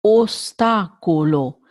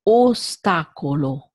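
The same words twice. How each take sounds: First: Ostacolo with every O closed and tight; Italian closed O in ostacolo. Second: Ostacolo with the first O a little more open; slightly open O. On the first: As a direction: say ostacolo, all O's closed. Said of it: "All the O's are closed in this". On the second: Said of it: "a little bit more open". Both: Shown as a demonstration.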